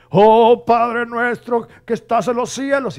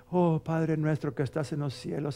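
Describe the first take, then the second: First: Much higher and louder, slow quavering prayer; overdone tearful Our Father; dramatic trembling prayer. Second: Said in the usual way. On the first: Retold or imitated. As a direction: ham up the prayer like a weeping preacher. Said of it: "le puso con más jugo, hasta temblaba". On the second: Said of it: "esas personas que nomás oran".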